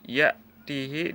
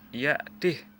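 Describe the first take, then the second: First: The h sound carries a long vowel after it. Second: The h sound has no vowel after it.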